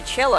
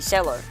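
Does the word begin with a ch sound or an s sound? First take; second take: ch sound; s sound. First: The word begins with a ch sound. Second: The word begins with an s sound. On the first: The speaker calls it right. "that's how you pronounce that?" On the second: The speaker calls it wrong. "there's no H there, so it must be cello"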